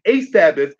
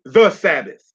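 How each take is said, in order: First: "a" stressed as the article being ruled out. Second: "the" picked out firmly before its noun; stress on THE. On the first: Teacher ruling out the indefinite article, stress on "a". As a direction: lean on "a" to set up a contrast. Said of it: "it's not saying a Sabbath". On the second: Teacher explaining the definite article, stress on "the". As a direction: hit "the" to mark one specific thing. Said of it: "it's saying the Sabbath". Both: Shown as a demonstration.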